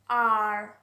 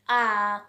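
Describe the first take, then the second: First: The final r sound is clearly pronounced. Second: The final r sound is silent. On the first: "we all Bengali people just tell it R" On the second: "in the British accent, the R one, this one will be silent letter"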